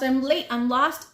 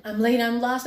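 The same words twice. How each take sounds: First: Loud repeat of late and lost; yelling. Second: Loud cry of late and lost; yelling. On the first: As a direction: keep calling out. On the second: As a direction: call out in a panic. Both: A narrator's reading.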